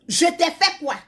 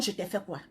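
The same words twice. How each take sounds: First: Said in the usual way. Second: Much softer, lower mock of the woman's plea; quoting the woman. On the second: Mocking the woman who asks what she did, hushed and low. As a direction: drop the voice to mimic her. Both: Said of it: "la femme te demande".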